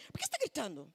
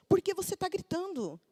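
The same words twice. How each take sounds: First: Lightly voiced mom's scolding question, softer; a hint of a fed-up mother asking. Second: Higher mock daughter voice throwing the question back; daughter talking back. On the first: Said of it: "a minha atitude é". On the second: Daughter turning mom's question back on her, higher mock voice. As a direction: imitate the kid turning it on mom. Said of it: "ela falou assim".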